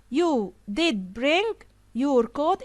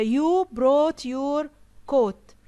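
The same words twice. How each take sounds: First: "did" set apart and drawn out; slow, deliberate weight on "did bring"; emphatic DID. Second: Said in the usual way. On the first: Shown as a demonstration. Teacher shows a friend contradicting a negative sentence, emphatic "did". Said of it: "he wanted to emphasize that". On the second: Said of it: "instead of".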